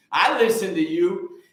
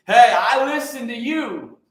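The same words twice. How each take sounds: First: Said in the usual way. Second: Raised and slower, insisting; louder emphatic repeat. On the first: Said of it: "repeats to Mama Baker". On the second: Real, not acted. To Mama Baker, insisting louder that he listens.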